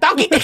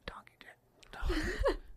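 First: It is yelled out loudly. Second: It is said in a whisper.

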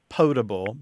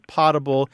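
First: The first syllable has a long 'oh' vowel. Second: The first syllable sounds like the word 'pot'. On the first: The speaker calls it right. "the better pronunciation is potable" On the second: The speaker calls it wrong. "many people do say potable"

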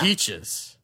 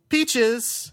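First: It is said in a gravelly Batman voice. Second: It is said in his normal voice.

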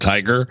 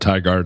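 First: The name ends with a 'ger' sound. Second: The name ends with a clear 'gard' sound. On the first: This may be how locals really say it. "it's really called Tiger" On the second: This is how the speaker has been saying it. "I call it Tigard"

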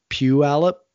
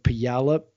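First: It uses the common, everyday modern pronunciation. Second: It uses an older, old-timey local pronunciation. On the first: This is how most people say it. "instead of Puyallup, which is kind of how everyone else pronounces it" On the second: This is how old-timey local people say it. "He pronounces it more like Puyallup, like Puyallup, kind of like that"

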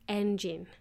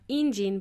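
First: The first vowel does not sound like E. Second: The first vowel sounds like the spelled E. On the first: The speaker calls it right. "but it is actually engine" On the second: The speaker calls it wrong. "you would think that it would sound like engine"

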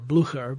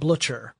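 First: The name is pronounced in a German way. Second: The name is pronounced in a British way. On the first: "the correct pronunciation if you're going with the German or Prussian" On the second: "the Brits actually pronounce it Blücher"

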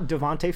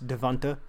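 First: The last syllable ends with an 'ay' vowel. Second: The last syllable ends with an 'ah' vowel. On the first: The speaker calls it wrong. "It's not Devonta Freeman" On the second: The speaker calls it right. "It's Devonta Freeman"

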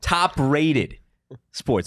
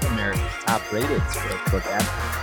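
First: It is said loudly with energy. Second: It is said softly and gently.

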